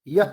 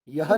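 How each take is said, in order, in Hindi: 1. अंत में हल्की h जैसी साँस है। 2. अंत में पूरी h ध्वनि है। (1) "ह जैसा उच्चारण होता है, लेकिन ह उच्चारण नहीं करना है" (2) "यह नहीं बोलना है"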